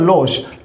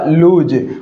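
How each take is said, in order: First: The vowel is a short o sound. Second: The vowel is a long oo sound. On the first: The speaker calls it wrong. "हम क्या करते हैं साथियों, ऐसे ही उच्चारण करते हैं" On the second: The speaker calls it right. "इसका उच्चारण भी क्या होगा"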